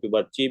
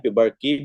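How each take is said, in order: First: The consonant before the ending is a ch. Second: The consonant before the ending is a hard k. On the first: "पिबर्ची भी कहते हैं" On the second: "पिबर्की भी कहते हैं इसको"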